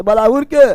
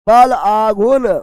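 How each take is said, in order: First: Said in the usual way. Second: बल आघूर्ण said slowly, each word spaced out for dictation; slow drilled term. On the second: Shown as a demonstration. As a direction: spell out बल आघूर्ण slowly so students can note it.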